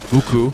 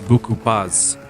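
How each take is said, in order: First: The final consonant is silent. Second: The final consonant links into the next vowel. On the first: "instead of buku" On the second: "we pronounce the P at the end of the word"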